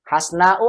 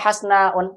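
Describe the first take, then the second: First: The word ends without a final n sound. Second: The word ends with a final n sound. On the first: The speaker calls it right. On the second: The speaker calls it wrong.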